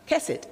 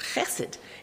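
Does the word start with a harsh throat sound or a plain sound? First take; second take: plain; harsh throat. First: It starts with a plain, non-throaty consonant. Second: It starts with a harsh, throaty rasping sound. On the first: The speaker calls it wrong. "And it's not chesed" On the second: The speaker calls it right. "It's chesed. It's like if a camel is spitting at you"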